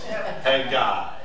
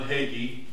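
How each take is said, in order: First: The word ends with a 'guy' sound. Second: The word ends with a 'gee' sound. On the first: The speaker calls it right. "A-I, Haggai ... hey, guy" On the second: The speaker calls it wrong. "it's not John Hagee"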